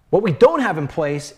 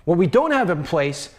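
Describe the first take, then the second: No difference in how they are said.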